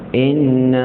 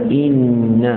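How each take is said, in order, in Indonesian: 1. Vokal pertama condong ke bunyi 'e'. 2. Vokal pertama adalah bunyi 'i' yang jelas. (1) "condong sikit" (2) "i hamzah baris bawah"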